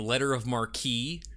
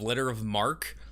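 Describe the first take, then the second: First: The last word has two syllables, ending in 'ee'. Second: The last word has one syllable, like 'mark'. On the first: The speaker calls it wrong. "I actually had been saying letter of marquee" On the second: The speaker calls it right. "it is letter of mark"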